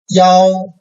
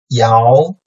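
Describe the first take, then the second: First: The pitch stays high and level. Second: The pitch rises from mid to high.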